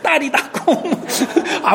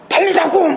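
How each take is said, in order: First: It is said in a soft, gentle voice. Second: It is said in a loud, forceful voice. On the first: The speaker calls it right. "不要大声来讲啊，就是很温柔的" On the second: The speaker calls it wrong. "很大声来"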